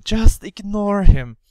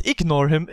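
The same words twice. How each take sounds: First: Firmer self-talk. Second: Said in the usual way. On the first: Retold or imitated. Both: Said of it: "I just thought".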